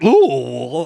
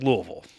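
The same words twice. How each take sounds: First: Every syllable of the word is pronounced fully. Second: The syllables of the word are slurred together. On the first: The speaker calls it wrong. "You don't say Louisville" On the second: The speaker calls it right. "Say it like you got a mouthful of bourbon"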